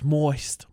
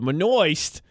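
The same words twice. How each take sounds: First: The word is said in a plain, normal way. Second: The word is said in a funny accent.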